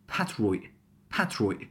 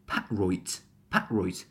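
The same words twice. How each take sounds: First: "patroit" as pat-roi', final T cut off; last T glottalized. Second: "patroit" as pa'-roit, final T sounded; first T glottalized. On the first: Teacher making it more natural, glottal final T. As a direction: sound the first T of "patroit", swallow the last. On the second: Teacher giving the alternative, glottal first T. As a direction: swallow the first T of "patroit", release the last. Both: Shown as a demonstration. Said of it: "just glottal one of them".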